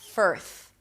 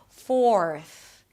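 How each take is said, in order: First: The vowel is an 'er' sound, not 'or'. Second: A clear 'or' vowel comes before the R. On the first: The speaker calls it wrong. "So it doesn't sound like firth" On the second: The speaker calls it right. "pronounce the O sound clearly before you bring the tongue up"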